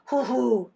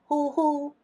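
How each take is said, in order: First: The syllables are said without a level high tone. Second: The syllables are said on a level high tone. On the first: The speaker calls it wrong. "대신 이건 안 돼요" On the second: The speaker calls it right. "이거 아니고 일성"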